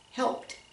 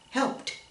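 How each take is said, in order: Both takes have the same delivery.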